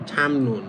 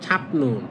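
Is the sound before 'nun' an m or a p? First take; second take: m; p. First: An m sound comes before 'nun'. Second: A p sound comes before 'nun'. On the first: "উচ্চারণ করবেন ছামনুন" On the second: "এটা লিখা হচ্ছে ছাপনুন"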